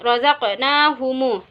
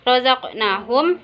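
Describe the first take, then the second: First: The final m is followed by a u vowel. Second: The word ends on a closed m sound. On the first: "mim jamak dibaca silah mim" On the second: "mim jamaknya dibaca sukun"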